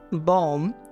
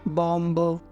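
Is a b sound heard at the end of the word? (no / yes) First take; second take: no; yes. First: The word ends on m with no b sound. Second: The word ends with an audible b sound. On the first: The speaker calls it right. "इसको हम बोलते हैं" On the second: The speaker calls it wrong. "ऐसे इसको नहीं बोलना है"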